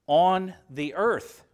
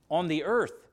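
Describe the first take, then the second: First: "On the earth" slowed, falling on "earth"; slow emphatic reading. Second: Said in the usual way. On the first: Shown as a demonstration. Preacher to congregation, reading the verse slowly with emphasis. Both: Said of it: "Strangers and pilgrims, where?".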